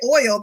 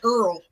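First: The word is said with a plain 'oy' vowel. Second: The word is said sounding like 'earl'. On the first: "they don't say oil" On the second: "You don't hear people from Louisiana, they say Earl"

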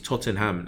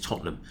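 First: Every syllable is pronounced fully and separately. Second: The middle syllable is reduced and barely heard. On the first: "she's trying to spell it out to me" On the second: "you don't pronounce the EN"

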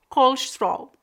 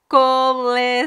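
First: European Portuguese accent, squeezed to about two syllables. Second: Brazilian accent, four full syllables.

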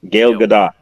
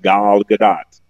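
First: The first name sounds like 'gail'. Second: The first name sounds like 'gal'. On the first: The speaker calls it wrong. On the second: The speaker calls it right.

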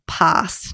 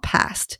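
First: It is pronounced the Australian way. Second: It is pronounced a non-Australian way. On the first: "we as Aussies tend to do. Like we say past" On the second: "not past"

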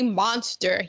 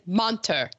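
First: The word has an s sound before the t. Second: The word has no s sound before the t. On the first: This is the usual form of the word. "your husband doesn't say monster" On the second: This is how someone else says the word. "He says monter"

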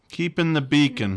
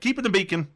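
First: It is said flatly, with little enthusiasm. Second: It is said with more enthusiasm and energy. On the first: The speaker calls it wrong. "You have to see that with a little bit more enthusiasm" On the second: The speaker calls it right. "There, that"

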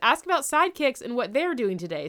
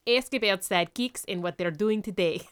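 First: It is said in the speaker's plain accent. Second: It is said in a put-on Russian accent.

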